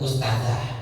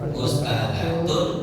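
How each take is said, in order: First: The word ends with a soft 'h' sound. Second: The word ends with a full 'tun' ending. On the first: The word is read at a stop. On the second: The word is read in connected speech.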